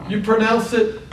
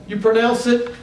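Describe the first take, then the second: No difference in how they are said.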